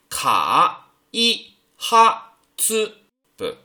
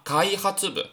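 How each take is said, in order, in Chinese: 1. 每个音节分开读，中间有停顿。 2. 音节连起来读，中间没有停顿。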